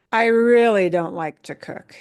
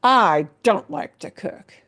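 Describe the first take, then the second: First: Really leaned on hard; really said with extra weight; stress on really. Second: I don't punched with rising tone; stress on I don't. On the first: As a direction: push the word really to intensify. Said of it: "in English, we might add on things like this". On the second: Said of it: "with the tone of your voice going up and down". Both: Shown as a demonstration.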